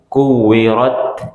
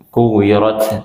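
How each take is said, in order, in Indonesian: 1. Huruf t di akhir dilepas dengan sedikit sekali napas. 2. Huruf t di akhir dilepas dengan banyak napas. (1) "hamusnya dikit banget keluarnya" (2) "cara bacanya bukan kuwirat kuwirat"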